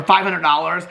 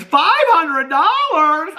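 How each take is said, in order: First: Said in the usual way. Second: High, drawn-out squeal of disbelief; Becky. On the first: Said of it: "when they get fifty dollars or". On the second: Retold or imitated. Quoting a sitcom character on the money, high drawn-out squeal. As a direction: stretch it out slowly in a high, incredulous screech. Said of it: "and Becky goes".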